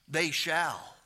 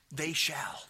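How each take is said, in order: First: Said in the usual way. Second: Whispered they shall. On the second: Shown as a demonstration. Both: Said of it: "You hear?".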